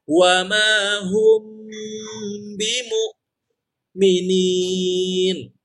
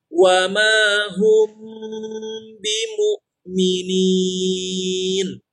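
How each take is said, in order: First: There is a pause in the middle of bimu'minin. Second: A brief stop flows on without any pause. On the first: The speaker calls it wrong. "jangan ada jeda" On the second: The speaker calls it right. "walaupun set berhenti tapi tetap mengalir"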